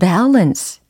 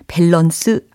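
First: It is said with English pronunciation. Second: It is said like the Korean loanword. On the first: The speaker calls it right. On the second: The speaker calls it wrong.

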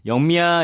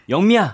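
First: The name is called in a normal, plain way. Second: The name is called strongly and forcefully.

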